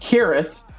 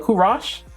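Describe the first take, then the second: First: The name ends with an 'ee-us' sound. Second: The name ends with an 'osh' sound. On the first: The speaker calls it wrong. "I thought this was Curious" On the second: The speaker calls it right. "Like Mosh"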